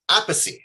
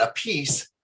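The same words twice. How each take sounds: First: "Appice" said in three syllables, AP-uh-see; correct surname pronunciation. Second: "a piece" said like two English words, uh-PEECE; wrong surname pronunciation. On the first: Host introducing drummer corrects the name, "[name]" pronounced AP-uh-see. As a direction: punch the start of "Appice" and end it on "see". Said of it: "[name], not a piece, but". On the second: Host introducing drummer shows the mistaken name, mispronounced as "a piece". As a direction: stress the second syllable of "a piece", rhyming with fleece. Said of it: "not a piece, but Appice".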